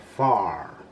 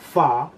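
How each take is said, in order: First: The final R sound is clearly pronounced. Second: The final R sound is dropped. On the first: "en inglés americano sería far, porque la R se dice bien" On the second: "far se puede decir en británico como fa, porque a ellos les cuesta decir la R"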